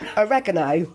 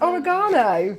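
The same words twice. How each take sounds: First: It is pronounced the American way. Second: It is pronounced the British way. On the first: The speaker calls it wrong. "that's how the American people on TikTok, that's what they call it" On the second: The speaker calls it right. "it's not, it's oregano"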